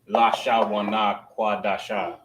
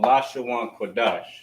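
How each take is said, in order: First: The words end with an added final vowel. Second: The words end in consonants without extra vowels. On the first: The speaker calls it wrong. "it's not pronounced" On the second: The speaker calls it right. "it's called"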